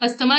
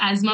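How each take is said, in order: First: The middle is said with a 'sth' sound. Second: The middle is said with a 'z' sound. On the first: The speaker calls it wrong. "अस्थमा नहीं बोलते इसको बच्चों" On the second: The speaker calls it right. "एजमा बोलते हैं"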